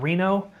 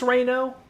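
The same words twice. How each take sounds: First: The first syllable sounds like 'ree'. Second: The first syllable sounds like 'rain'. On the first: The speaker calls it wrong. "and not Reno" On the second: The speaker calls it right. "like Rain O"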